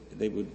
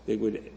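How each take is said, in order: Both takes have the same delivery.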